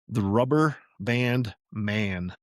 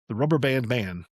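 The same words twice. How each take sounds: First: It is said slowly. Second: It is said fast.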